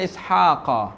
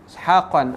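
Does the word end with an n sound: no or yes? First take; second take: no; yes. First: The word ends on a plain vowel without n. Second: The word ends with an added n sound. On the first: The speaker calls it right. "Nasab kita baca Ishaqa" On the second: The speaker calls it wrong. "Kita tak baca dengan Ishaqun, Ishaqan"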